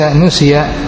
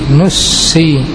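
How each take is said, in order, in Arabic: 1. السين قصيرة ومفردة. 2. تُنطق السين ممدودة ومشدّدة. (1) "لا بتخفيفها" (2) "بتثقيل السين"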